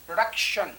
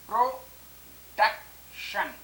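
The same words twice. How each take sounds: First: Said in the usual way. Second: Slow production split into pro, डक, शन; long pauses between the three parts of production; syllable by syllable. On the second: Shown as a demonstration. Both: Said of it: "यहाँ पर एक syllable ये है".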